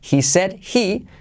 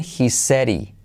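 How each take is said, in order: First: A clear d, and the h of 'he' is pronounced. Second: A soft r for d, and the h is dropped.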